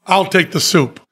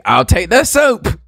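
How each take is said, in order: First: "soup" with a falling tune; flat falling delivery of "soup"; downward inflection. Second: High, slow, lilting "I'll take the soup"; bright upward lilt on "soup"; rising sing-song soup. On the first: Retold or imitated. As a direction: let "I'll take the soup" drop at the end. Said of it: "he says it with a downward inflection". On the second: Shown as a demonstration. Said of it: "whereas I say".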